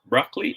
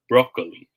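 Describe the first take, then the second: First: Broccoli as BRAHK-lee; open O in broccoli. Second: Broccoli as BROH-koh-lee; long O in broccoli. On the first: Teacher asking smiley or wink, broccoli as BRAHK-lee. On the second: Teacher asking smiley or wink, broccoli as BROH-koh-lee. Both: Shown as a demonstration. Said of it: "Smiley face or wink face?".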